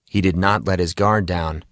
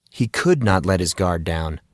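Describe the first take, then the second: First: Said in the usual way. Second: "could" leaned on, the rest falling away; stress on could. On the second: A narrator's reading. Narrator correcting himself, stressing "could". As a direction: press the word "could" as the correction. Or better said.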